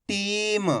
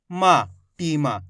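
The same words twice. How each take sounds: First: टीम ending on a half म, no आ after it; stop on last letter. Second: टीमा with a full long आ after म; full final letter. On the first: Teacher showing where to stop on the last letter, half-pronounced ending. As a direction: hold the ई in टीम, then stop on म. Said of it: "इस पे आके रुक जाना है". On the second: Teacher showing the mistake to students, last letter fully pronounced. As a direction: slowly sound out मा, then टीमा with the open आ ending. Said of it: "पूरा उच्चारण कर दोगे तो शब्द गलत". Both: Shown as a demonstration.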